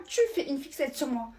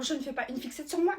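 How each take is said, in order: First: "tu" hit hard, falling end; stress on TU. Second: "moi" qui monte en fin de phrase; accent sur MOI. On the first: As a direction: throw it back by punching "tu". (accent appuyé sur TU) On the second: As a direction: nier en faisant monter la voix sur "moi". (insister sur MOI, ton montant) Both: Acted. Throwing the accusation back.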